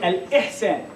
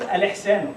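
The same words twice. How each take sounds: First: A clear glottal stop is said before 'ihsan'. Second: The glottal stop before 'ihsan' is dropped and linked. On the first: The speaker calls it right. "It's strong. There is there is a hamza here" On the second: The speaker calls it wrong. "it's not al-ihsan"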